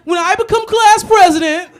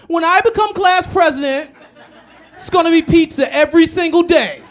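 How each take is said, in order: First: Very high, loud and slow schoolkid voice; pompous little kid on stage; exaggerated child speechmaker; kid candidate voice. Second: Squeaky-high child candidate, hammed up; kid candidate voice. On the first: Repeats the kid candidate line. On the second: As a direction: play a kid promising pizza at an assembly. Mimics kid running for president.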